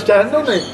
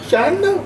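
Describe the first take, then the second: First: शहाण्णव नाही with a falling, sulky tone; mild sulky complaint. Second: शहाण्णव pitched high with a whiny rise; high pouty shahannav rising at the end; mock pouty whine. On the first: Retold or imitated. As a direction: grumble शहाण्णव नाही like a let-down parent. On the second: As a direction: whine शहाण्णव like a sulking parent. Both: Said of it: "तोंड आकडे करून".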